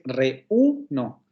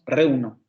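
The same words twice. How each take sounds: First: The two vowels fall in separate syllables. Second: The two vowels blend into one syllable. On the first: The speaker calls it right. "Es reuno" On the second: The speaker calls it wrong. "no decimos reuno"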